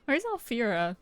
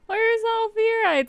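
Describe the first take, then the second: First: Said in the usual way. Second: High excited question. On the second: Shown as a demonstration. Repeats question after laughing.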